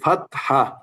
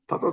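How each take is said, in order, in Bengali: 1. শব্দটি একটি স্পষ্ট h ধ্বনি সহ উচ্চারিত হয়। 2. শব্দটি h ধ্বনি ছাড়া উচ্চারিত হয়। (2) "ফাতা তো কিছু নেই।"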